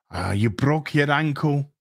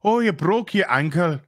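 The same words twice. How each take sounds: First: Low, mock-sympathetic line; mock emotional moment. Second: Lightly put-on Irish lilt; mock Irish accent. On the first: Mocking the Harfoots' forced emotional moment, mock sympathy. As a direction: imitate forced concern in a lower voice. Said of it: "where they're just like". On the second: Imitating Harfoots over a broken ankle, mock Irish accent. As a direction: imitate an Irish speaker with exaggerated concern. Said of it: "it's like the Irish".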